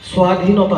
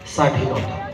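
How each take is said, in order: First: It begins with a throaty, h-like sound. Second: It begins with a clear s sound. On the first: The speaker calls it wrong. "নহয়" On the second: The speaker calls it right. "প্ৰথম চব আকাৰে চাক"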